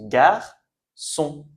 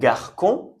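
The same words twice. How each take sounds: First: "garçon" as gar-son, slowly split in two; soft C. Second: "garçon" misread as gar-kon, with a K; hard C. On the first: Teacher showing learners how the word is pronounced, soft C. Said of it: "On prononce garçon". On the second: Teacher showing learners the word as if without cédille, hard C. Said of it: "on devrait prononcer K". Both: Shown as a demonstration.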